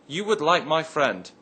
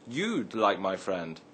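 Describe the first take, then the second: First: 'You would' is said as two full words. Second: 'You would' is shortened to one syllable.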